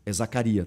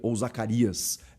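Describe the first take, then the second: First: The name ends without an s sound. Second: The name ends with an s sound. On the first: The speaker calls it right. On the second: The speaker calls it wrong.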